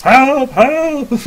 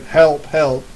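First: High, loud, drawn-out call; yelled cry for help. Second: Mild mock cry for help at near-normal pitch; half-hearted shout for help. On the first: Acted. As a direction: yell for help from another room. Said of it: "like, someone yelling". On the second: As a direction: call for help without really yelling. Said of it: "you hear somebody shouting out".

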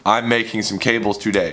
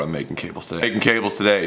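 First: "making some cables today" said word by word, distinctly; careful enunciation. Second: Said in the usual way. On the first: Shown as a demonstration. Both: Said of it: "why is it so hard to say".

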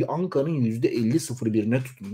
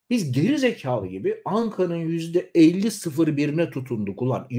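First: Said in the usual way. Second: Higher, rising and heated on "geri zekalı"; "Biz geri zekalı gibi" flung out high and heated with a rise; heated and higher, then falling away; indignant outburst. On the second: Real, not acted. Bitter repeat of the claim.

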